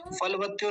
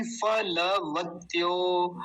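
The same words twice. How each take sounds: First: फलवत्यो quick, with फल as one syllable; mistaken pronunciation. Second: फलवत्यो slowly, with a full a after ल; correct pronunciation. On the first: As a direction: run l straight into व in फलवत्यो. (फलवत्यो में ल आधा, जल्दी) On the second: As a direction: draw out फ-ल-वत्यो syllable by syllable. (फलवत्यो में ल पूरा, धीरे) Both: Shown as a demonstration. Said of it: "फलवत्यो नहीं".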